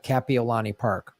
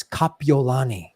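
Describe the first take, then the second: First: "Kapiolani" with a flat CAP at the start; mainlander's mispronunciation. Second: "Kapiolani" starting KAH-pee; Hawaiian pronunciation. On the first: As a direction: say "Kapiolani" the Chicago way, CAP-ee-o-lani. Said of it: "I said, like". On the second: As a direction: correct "Kapiolani" with open Hawaiian vowels. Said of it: "called me to say it's". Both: Retold or imitated.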